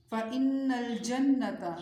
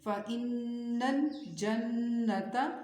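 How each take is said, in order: First: Said in the usual way. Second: فَإِنَّ الْجَنَّةَ with each doubled n hummed long through the nose; slow recitation of فَإِنَّ الْجَنَّةَ, doubled n's sustained; ghunnah on noon. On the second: Shown as a demonstration. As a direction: linger nasally on both نّ in فَإِنَّ الْجَنَّةَ. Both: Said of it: "نون پر غنہ کریں گے".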